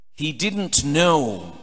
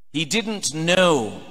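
Both takes have the same delivery.

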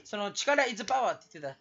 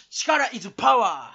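First: Said in the usual way. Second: 「力is power」を大声でゆっくり言い切る; 語尾を伸ばして力強く宣言; 芝居がかった標語の叫び. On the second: Acted. 標語のように叫ぶ. (力強い絶叫の決め台詞)

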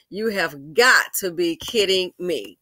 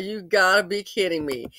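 First: Slow, spelled-out words with stress on "got"; slow emphatic disbelief. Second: Said in the usual way. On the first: Retold or imitated. Vlogger recalling first reaction to the commercial, slow emphatic disbelief. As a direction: lean hard on "got", drawing each word out.

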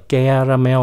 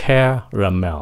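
First: "caramel" starting with unaspirated g-like c; mispronounced caramel. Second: "caramel" with a strong puffed k: KHE-ra-mel; throaty first sound. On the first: Teacher showing the mistake, caramel without puffed k. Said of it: "nó không phải là caramel". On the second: Teacher correcting, caramel with strongly puffed k. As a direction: push air through the c of "caramel". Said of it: "nhớ khạc nó nha". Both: Shown as a demonstration.

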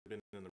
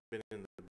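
The two takes are said the same way.

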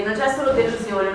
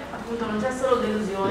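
First: Pushed a bit louder through a heavy mask. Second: Muffled behind a heavy mask; through a face mask. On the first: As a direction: raise the voice to carry through the mask. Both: Real, not acted. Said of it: "La voce un po' più alta".

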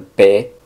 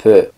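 First: P said with an open Spanish E, "peh". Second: P said as French "puh", vowel more closed; short P with a closed, rounded French E. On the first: Teacher contrasting Spanish E for learners, P with open Spanish E. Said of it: "no es tan abierta como una E en español". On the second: Teacher showing learners the French E, P with closed vowel. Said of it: "sino un poco más cerrada". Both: Shown as a demonstration.

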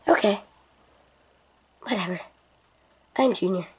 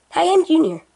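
First: Lower, softer flat imitation of Junior; mock him in a dull low voice. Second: Put-on higher, brighter made-up kid voice; Junior's put-on voice. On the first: Friend flatly mocks Junior's intro in a low voice. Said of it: "I don't have that wee wee voice". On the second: Junior proudly reintroduces himself in his chosen voice. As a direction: go back to the silly high voice. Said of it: "I'll keep this voice 'cause I like this voice".

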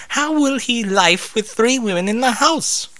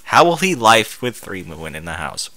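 First: High character voice. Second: Deadpan reread mocking the grammar. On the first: Acted. Rarity voiced. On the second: Real, not acted. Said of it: "I have a feeling this was actually written by a Russian".

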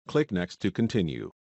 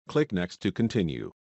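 The two takes are said the same way.

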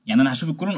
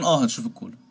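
First: Rising question tune on "الكولون"; asked with a rise on "الكولون". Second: Falling tune on "الكولون"; answered with a closing fall on "الكولون"; confirming answer. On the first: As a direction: lift the end of "الكولون" as if checking. Asks as student, then answers. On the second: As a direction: settle "الكولون" downward as a sure answer. Answers the posed question. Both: Acted.

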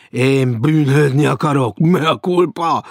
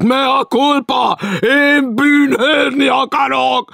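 First: Loud declamation of guilt; tragic cry. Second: Very high, slow, loud wailing shout; full tragic shout. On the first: Stranger beats his breast before Maud, crying out. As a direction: proclaim repentance with tragic show. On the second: Stranger loudly begs punishment, shouting tragically. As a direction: bellow repentance at the top of the voice. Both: A narrator's reading. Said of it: "Kiáltott".

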